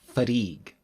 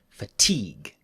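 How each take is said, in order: First: The t is flapped like a quick r. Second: The t is a clear, crisp t. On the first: The speaker calls it wrong. "But we don't say fatigue" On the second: The speaker calls it right. "The tig is strong, so we keep the T"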